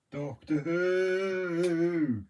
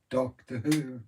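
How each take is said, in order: First: Very slow, stretched Doctor Who; slow dramatic Doctor Who; drawn-out. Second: Said in the usual way. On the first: Shown as a demonstration. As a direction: draw out Doctor Who like a theme.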